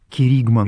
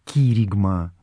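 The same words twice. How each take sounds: First: The word carries its usual Russian stress. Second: The word carries its original Greek stress. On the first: The speaker calls it wrong. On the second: The speaker calls it right.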